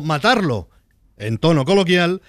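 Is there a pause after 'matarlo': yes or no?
yes. There is a pause after matarlo.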